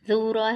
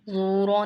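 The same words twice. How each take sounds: First: The first consonant is light and thin. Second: The first consonant is heavy and thick. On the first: The speaker calls it right. "जूरा है" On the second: The speaker calls it wrong. "जूरा नहीं करना है"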